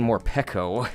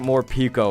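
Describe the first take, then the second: First: The vowel after the p sounds like 'eh'. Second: The vowel after the p sounds like 'ee'. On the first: This is how the show says the name. The speaker calls it wrong. "on the anime they were saying more pecco" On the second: This is how the speaker always said the name. The speaker calls it right. "I think more pico is correct"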